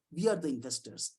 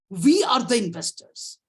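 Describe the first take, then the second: First: Softer, lower, settled conclusion; soft restatement. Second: Slow, louder, leaning on we; emphatic declaration. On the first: Lecturer quietly restating to colleagues that they are the investors. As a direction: say it again quietly to let it land. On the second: Lecturer telling colleagues who the investors are, slow and emphatic. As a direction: drive home that we are the investors. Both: Shown as a demonstration.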